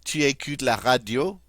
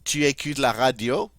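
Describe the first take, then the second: No difference in how they are said.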